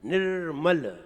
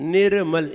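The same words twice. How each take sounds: First: The r runs straight into m, no vowel. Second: A full vowel is heard after the r. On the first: The speaker calls it right. "इसलिए निर्मल" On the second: The speaker calls it wrong. "निर्मल ऐसे नहीं"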